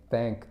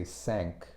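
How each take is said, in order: First: Said in the usual way. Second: "sank" with a plain S, meant as "thank". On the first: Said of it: "Instead of saying thank". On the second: Shown as a demonstration. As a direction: say "sank" for "thank", hissed S replacing TH. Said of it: "They pronounce the T H like".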